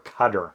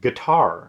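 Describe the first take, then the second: First: It sounds like the word cutter. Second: It sounds like the word guitar. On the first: The speaker calls it wrong. "or cutter" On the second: The speaker calls it right. "It's guitar"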